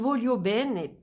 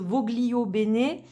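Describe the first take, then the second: First: The name is said with Italian pronunciation. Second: The name is said with French-style pronunciation. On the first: It follows the original Italian meaning. "je le prononce Volio Bene parce que en italien, ça veut dire je le veux bien" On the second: It plays on the author's first name. "D'autres personnes disent Voglio Bene"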